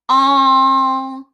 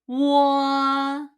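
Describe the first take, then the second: First: A plain rounded o vowel with no glide. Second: The vowel starts with a w glide. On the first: This is the newer official reading. "this one should be pronounced as all" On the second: This is the older school reading. "they read this one as 我"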